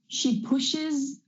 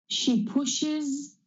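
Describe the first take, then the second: The two takes are said the same way.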